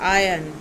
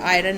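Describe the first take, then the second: First: The r sound is silent in the word. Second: The r sound is pronounced in the word. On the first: The speaker calls it right. "आर is silent" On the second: The speaker calls it wrong. "ये आयरन नहीं है"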